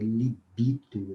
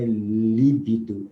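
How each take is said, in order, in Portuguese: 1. A sílaba tônica está na penúltima. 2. A sílaba tônica não está na penúltima. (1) "é libido" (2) "Não é líbido"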